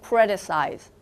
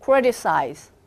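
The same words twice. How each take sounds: First: The T is softened and smoothly linked. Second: The same.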